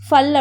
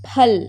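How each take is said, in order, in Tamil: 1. இது fan என்பது போல f ஒலியில் தொடங்குகிறது. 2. இது காற்றுடன் வெளிவரும் p ஒலியில் தொடங்குகிறது. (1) "இதை வந்து ஃபேன்னு சொல்லக்கூடாது. ஃப ஃபல் அப்படி சொல்லக்கூடாது" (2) "ப கொஞ்சம் பேவை வந்து அழுத்தி சொல்லணும். வித் கொஞ்சம் கொஞ்சம் ஏர்"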